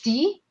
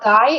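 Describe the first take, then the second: First: The vowel sounds like 'ee'. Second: The vowel sounds like 'eye'. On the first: The speaker calls it right. "it's D" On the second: The speaker calls it wrong. "it's not die"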